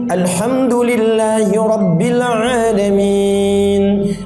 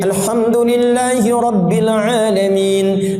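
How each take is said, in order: First: It is recited at medium pace, vowels held longer. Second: It is recited fast with short vowel lengths.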